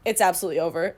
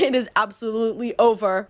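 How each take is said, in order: First: Said in the usual way. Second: Laughing through the words; said through real laughter. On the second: Real, not acted. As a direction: giggle out the repeat. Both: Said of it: "repeats line, second take laughing".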